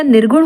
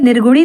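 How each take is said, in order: First: Said in the usual way. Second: निर्गुणी ending in long ee; wrong form. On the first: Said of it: "निर्गुण होता है". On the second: Shown as a demonstration. Teacher rejects a misspelling, निर्गुणी ending in ee. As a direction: add -ee to end निर्गुणी. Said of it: "निर्गुणी नहीं होता".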